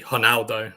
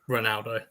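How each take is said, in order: First: The name begins with an H sound. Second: The name begins with an R sound. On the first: The speaker calls it right. "R's at the beginning are H's in Brazil. So it's actually Ronaldo" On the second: The speaker calls it wrong. "not Ronaldo"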